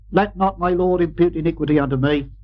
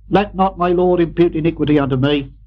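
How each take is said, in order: No difference in how they are said.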